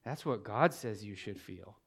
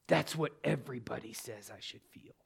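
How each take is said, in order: First: Low, soft retold reply; quiet firm correction. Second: Mock outburst held down low; retold angry outburst. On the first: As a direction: answer the outburst quietly, pitched well down. His firm answer to her outburst. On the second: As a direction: imitate an angry retort under your breath. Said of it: "she exploded on me".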